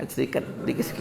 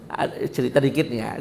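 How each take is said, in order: First: Quiet aside. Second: Said in the usual way. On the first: Shown as a demonstration.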